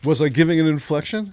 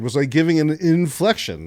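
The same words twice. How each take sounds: First: "inflection" lifted at the end as a question. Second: "inflection" let fall at the end. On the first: Host questioning guest about his delivery, rising on "inflection". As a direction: ask it with a rise on "inflection". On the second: Host repeating his question to guest, falling on "inflection". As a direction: ask it with a drop on "inflection". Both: Real, not acted. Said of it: "the inflection".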